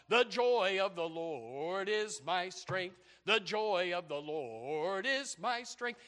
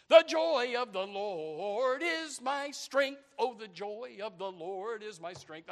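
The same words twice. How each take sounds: First: Drawn-out congregational hymn singing; sung, unaccompanied church chorus, long held vowels; imitated church singing. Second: Sung, hammed-up hymn, high and loud at first; sung, belt out the slow chorus like an eager churchgoer; exaggerated congregational singing, long held notes; imitated enthusiastic singing. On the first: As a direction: sing it slowly like the congregation. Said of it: "they're singing this song". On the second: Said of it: "they're going like this".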